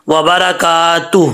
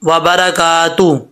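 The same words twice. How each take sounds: No difference in how they are said.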